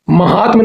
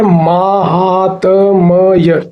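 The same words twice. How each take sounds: First: महात्म with short first a, ma-haatm; wrong form. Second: माहात्म्य very slow, long maa, maa-haa-t-m-ya; correct form, broken down. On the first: Teacher citing the mistake, महात्म with short ma. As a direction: say महात्म quickly, short opening ma. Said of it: "नहीं होता". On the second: Teacher correcting students, माहात्म्य syllable by syllable with long maa. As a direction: draw out each sound of माहात्म्य. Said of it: "ये होता है". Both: Shown as a demonstration.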